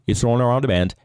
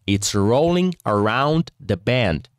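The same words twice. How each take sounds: First: It is said quickly and fluently. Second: It is said slowly, word by word. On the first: "Aumentar a velocidade. E falar assim" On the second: "comecei a ler palavra por palavra"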